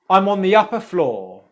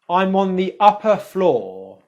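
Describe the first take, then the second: First: It is said quickly, with words run together. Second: It is said slowly, with separated words.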